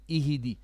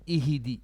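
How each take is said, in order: The two takes are said the same way.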